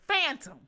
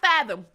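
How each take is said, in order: First: It is said as phantom, with n and t. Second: It is said as fathom, with a th sound. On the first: "We say phantom" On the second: "Not fathom"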